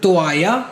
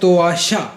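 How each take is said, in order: First: The double l is said as a y sound. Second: The double l is said as an sh sound. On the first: This is a general way anyone can say it. "तू तो आया या तो आजा कुछ भी बोल सकता है।" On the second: This is how people in Argentina say it. "एस एच थोड़ा अर्जेंटीना स्पेसिफिक है, कि वो तोआशा, वो ऐसे बोलेंगे।"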